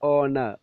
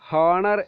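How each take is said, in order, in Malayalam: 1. ഈ വാക്ക് നേരിട്ട് ഒരു സ്വരാക്ഷരത്തിലാണ് തുടങ്ങുന്നത്. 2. ഈ വാക്ക് h ശബ്ദത്തിലാണ് തുടങ്ങുന്നത്. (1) "ആ ഓ മാത്രം മതി" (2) "honor എന്നല്ല നമ്മൾ പറയേണ്ടത്"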